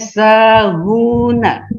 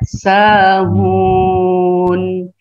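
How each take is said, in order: First: The word ends with a vowel after n. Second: The word stops on n, vowel before it lengthened. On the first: This is the original form of the word. "Ini tadinya sahuna" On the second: This is how it is read when stopping. "dibaca sahun, dibaca dua, bisa juga sampai lima harokat"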